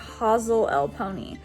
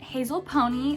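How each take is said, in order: First: The name has an extra middle syllable, five total. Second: The name is said with four syllables. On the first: The speaker calls it right. "It's pronounced Hazel L Pony" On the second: The speaker calls it wrong. "I said Hazel Pony, that's not right"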